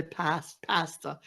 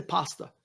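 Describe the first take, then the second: First: "pasta" with short a as in cat; British pronunciation. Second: "pasta" with open ah, "pah-sta"; Italian pronunciation. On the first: Retold or imitated. Excusing the British guest, "pasta" mimicked with a short a. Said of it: "all the British say". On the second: Shown as a demonstration. Explaining how Italians say it, "pasta" with open ah. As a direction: say "pasta" with a broad ah in the first syllable. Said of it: "Italians say pasta".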